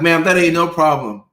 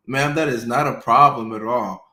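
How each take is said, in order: First: Gleeful patient. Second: Said in the usual way. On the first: Retold or imitated. Patient gleefully answers doctor.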